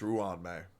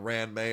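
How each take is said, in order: First: The first syllable is said as 'rwan'. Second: The first syllable is said as 'ran'. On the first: The speaker calls it right. "it's Ruan May" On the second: The speaker calls it wrong. "it's not Ran May"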